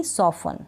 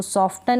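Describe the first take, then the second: First: "सॉफन" with a silent T; correct pronunciation. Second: "सॉफ्टन" with the T sounded; mispronounced "सॉफ्टन", T not silent; wrong pronunciation. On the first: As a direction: leave the T out of "सॉफन". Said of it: "टी इन सारे spellings में". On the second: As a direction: say a T after F in "सॉफ्टन". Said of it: "सॉफ्टन नहीं". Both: Shown as a demonstration.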